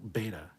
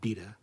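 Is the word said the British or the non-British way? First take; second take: non-British; British. First: It is pronounced the non-British way. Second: It is pronounced the British way. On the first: The speaker calls it right. "It's also beta" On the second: The speaker calls it wrong. "It's not beta"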